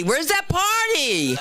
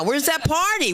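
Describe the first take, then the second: First: High, slow, drawn-out teasing question. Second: Said in the usual way. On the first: Shown as a demonstration. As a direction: stretch out "Where's that party?" slowly to needle the crowd.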